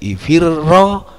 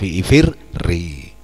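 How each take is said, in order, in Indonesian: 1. Kata ini berakhir dengan vokal 'a'. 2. Kata ini berakhir dengan vokal 'i'.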